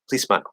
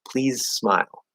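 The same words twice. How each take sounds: First: It is faster, with the Z dropped into S. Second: It is slower, with a voiced Z before smile. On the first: "if I'm speaking quickly ... I'm just going straight into an S" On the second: "if you're speaking more slowly"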